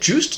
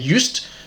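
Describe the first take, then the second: First: The name is said the American way. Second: The name is said the South African way. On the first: "Americans maybe say Joost" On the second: "South Africans would say Just"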